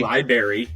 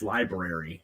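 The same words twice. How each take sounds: First: Library said as LIE-berry; R dropped. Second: Library said as LIE-brair-ee, both Rs in; R pronounced. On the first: Host showing guest the wrong way, library as LIE-berry. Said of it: "you don't say library". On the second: Host correcting guest by analogy, library with both Rs. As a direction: sound the R after the B in library. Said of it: "You, it's library". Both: Shown as a demonstration.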